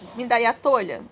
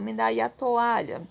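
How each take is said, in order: First: The two vowels merge quickly into one syllable. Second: The two vowels are said slowly, in separate syllables. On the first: The speaker calls it wrong. "Se eu falasse eles tudo junto, ficaria tolha" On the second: The speaker calls it right. "Eu falo to e o a bem separadinho. Tanto é que eu falo com mais calma"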